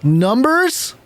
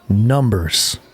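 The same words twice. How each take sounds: First: The voice rises at the end. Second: The voice falls at the end.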